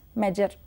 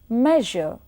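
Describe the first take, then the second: First: The middle consonant is a j or z sound. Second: The middle consonant is a soft zh sound. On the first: The speaker calls it wrong. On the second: The speaker calls it right.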